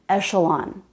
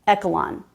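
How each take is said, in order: First: The middle consonant is an sh sound. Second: The middle consonant is a k sound. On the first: The speaker calls it right. "This word is echelon, ... it's the sh sound" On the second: The speaker calls it wrong. "not echelon ... not the k, k sound"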